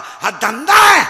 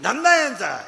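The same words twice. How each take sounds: First: Loud, slow and higher, hammering it home; preacher thundering at the crowd to condemn the boys' racket; slow preaching shout. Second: Said in the usual way. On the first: Acted. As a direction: roar it at the crowd. Climax of sermon denunciation.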